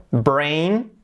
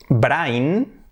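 First: "brain" said BRAYN; an AY sound in "brain"; English pronunciation. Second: "brain" read BRINE, tapped r; Spanish AI in "brain"; read as spelt. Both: Shown as a demonstration. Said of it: "Por lo tanto".

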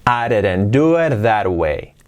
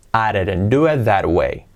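The two takes are said the same way.

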